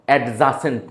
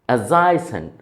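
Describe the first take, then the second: First: The middle vowel is a short 'a'. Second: The middle vowel is an 'ay' sound. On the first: The speaker calls it wrong. "Not অ্যাডজাসেন্ট না" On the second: The speaker calls it right. "উচ্চারণ খেয়াল করেন"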